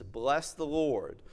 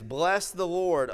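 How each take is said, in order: First: Slower, leaning on Lord without raising the voice; repeated for emphasis. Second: Raised and slow, lifting the opening praise; proclaiming scripture. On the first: Pastor repeats the psalm's call, slow and deliberate. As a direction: linger on each word as you say it again. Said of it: "he repeats for emphasis". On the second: Pastor begins reading the psalm to his congregation, proclaiming. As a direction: call out the first words of the psalm like a summons. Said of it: "And he begins". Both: Acted.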